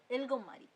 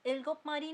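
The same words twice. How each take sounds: First: इल्गोम मारी, the p turned to m; इल्गोम मारी with a held m; right reading. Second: इल्गोप मारी with a clear p; इल्गोप मारी, stopping hard on p; wrong reading. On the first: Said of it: "नहीं, इल्गोम मारी". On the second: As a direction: Korean read letter by letter as इल्गोप मारी. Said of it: "नहीं". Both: Shown as a demonstration.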